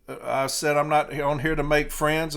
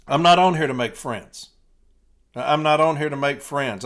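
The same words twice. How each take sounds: First: Said in the usual way. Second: Louder, driving the line home; emphatic loud repeat. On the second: Shown as a demonstration. Rallying the light blue, loud and emphatic. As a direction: hammer it at the listeners.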